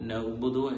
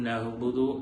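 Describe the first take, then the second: Both takes have the same delivery.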